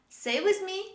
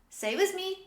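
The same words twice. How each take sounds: The two takes are said the same way.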